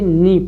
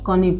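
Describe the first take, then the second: First: The word starts with n, no k sound. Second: The word starts with an audible k sound. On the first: The speaker calls it right. "इसको क्या पढ़ेंगे, नी पढ़ेंगे" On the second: The speaker calls it wrong. "अगर को नी पढ़ते, क्या पढ़ते, इसको कनी पढ़ते"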